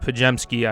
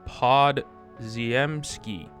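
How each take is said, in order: First: The name is said with a 'j' sound, 'Pa-jem-ski'. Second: The name is read letter by letter, 'Pod-ziem-ski'. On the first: The speaker calls it right. "But it's Pajemski, I know" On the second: The speaker calls it wrong. "I pronounce it the way I spell it"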